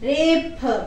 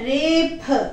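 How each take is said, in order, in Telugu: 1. చివరి హల్లు aspirated p. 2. చివరి హల్లు aspirated p.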